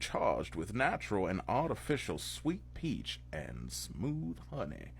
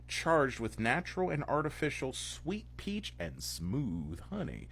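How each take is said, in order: First: It is read in a Southern American accent. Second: It is read in a plain accent.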